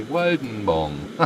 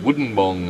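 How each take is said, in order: First: Wodenbong with a short o, not like wooden; correct pronunciation. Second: Woodenbong with a long oo like wooden; wrong pronunciation. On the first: Correcting the town name, Wodenbong with a short o. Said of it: "it's actually Wodenbong". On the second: Tourist's mistaken Woodenbong, oo as in wooden. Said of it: "you called it Woodenbong". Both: Shown as a demonstration.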